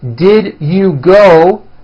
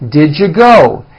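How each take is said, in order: First: The words are said separately and fully. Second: The words are blended into one reduced form.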